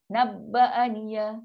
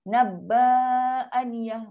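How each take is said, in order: First: The vowel after bb is short. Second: The vowel after bb is long. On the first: The speaker calls it right. "Satu je" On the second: The speaker calls it wrong. "Ba dia baca panjang. Tak boleh"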